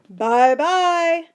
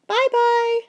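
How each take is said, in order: First: It is said in a deep, rough voice. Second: It is said in a high, squeaky voice. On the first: "a big rough voice" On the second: "a high squeaky voice"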